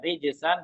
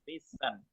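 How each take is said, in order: First: The middle consonant is a j sound. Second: The middle consonant is an s sound. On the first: The speaker calls it right. "huruf jim" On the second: The speaker calls it wrong. "berubah menjadi huruf sin"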